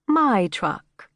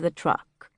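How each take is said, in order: First: "My" pitched higher and leaned on in "My truck"; "My truck" with a high, emphatic "My"; stress on "My". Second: Said in the usual way. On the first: A narrator's reading. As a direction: hit "My" hard, claiming ownership. Corrects "the truck" to "My truck.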